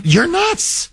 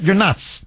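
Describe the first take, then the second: First: Higher, punchy mock verdict; blunt grown-up. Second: Said in the usual way. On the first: Host repeats the grown-up's verdict, high and punchy. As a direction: snap it like the only adult present. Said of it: "Where's the one that says". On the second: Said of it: "Do you understand?".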